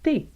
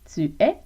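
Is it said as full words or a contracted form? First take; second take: contracted; full. First: The words merge into one short syllable. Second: Both words are said in full. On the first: Everyday Quebec French. "Tu es devient t'es" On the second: Standard normative French. "Tu es devient t'es"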